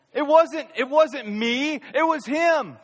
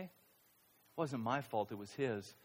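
First: High and loud, stress on wasnt and him; loud excuse. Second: Much softer and lower, slow, stress on wasnt and his; quiet excuse. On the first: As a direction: push the blame away loudly: "It wasn't me". Mock excuse, then quiet repeat. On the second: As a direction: mutter the blame slowly. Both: Retold or imitated.

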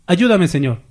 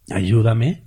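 First: Said in the usual way. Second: Whiny plea. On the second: Retold or imitated.

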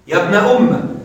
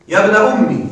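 First: يا ابن أم said umm-a, doubled mim with a short a; fatha on the mim. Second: يا ابن أمي with the mim doubled and ending in a short i; kasra on the mim. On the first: Teacher to students showing the second form, fatha on mim. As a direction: end أم on a short open a. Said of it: "حذف الياء وفتح الميم". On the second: Teacher to students showing the first form, kasra on mim. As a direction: say أمي as umm-i, short final i, no long ya. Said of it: "لكن في الوصل ستكسر". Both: Shown as a demonstration.

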